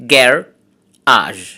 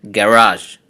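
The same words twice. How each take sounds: First: Garage split into two syllables with a pause. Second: Said in the usual way. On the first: Shown as a demonstration. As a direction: say garage in two separate beats. (garage দুই সিলেবলে ভেঙে থেমে থেমে) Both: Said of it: "disyllabic words".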